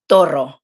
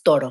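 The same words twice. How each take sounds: First: The r is pronounced as a hard r. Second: The r is pronounced as a soft r. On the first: The speaker calls it wrong. "there's people that will do the hard R with everything" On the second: The speaker calls it right. "it's toro"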